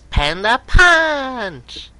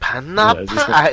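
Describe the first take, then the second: First: It is said in a high cartoon voice. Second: It is said in a normal speaking voice. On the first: The speaker calls it right. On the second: The speaker calls it wrong.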